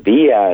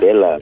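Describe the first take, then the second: First: Villa is said with a Spanish sound. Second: Villa is said with an English sound. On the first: The speaker calls it right. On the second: The speaker calls it wrong. "not Villa"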